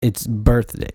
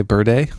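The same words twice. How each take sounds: First: "birthday" with the th said clearly; a careful, complete "birthday"; full birthday. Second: "birthday" with the th dropped, as "birday"; "birthday" run together without the th; clipped birthday. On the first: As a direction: give "birthday" its full th sound. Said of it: "it's like adding that th". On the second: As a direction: say "birthday" with no th sound. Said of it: "B I R D A Y". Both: Shown as a demonstration.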